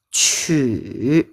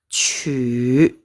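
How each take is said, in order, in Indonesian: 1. Nadanya turun lalu naik. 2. Nadanya turun lalu naik.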